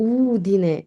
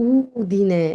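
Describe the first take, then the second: No difference in how they are said.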